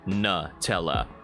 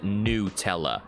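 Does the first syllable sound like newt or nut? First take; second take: nut; newt. First: The first syllable sounds like nut. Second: The first syllable sounds like newt. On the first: The speaker calls it wrong. "not ... It's not nut" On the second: The speaker calls it right. "apparently you're supposed to pronounce it"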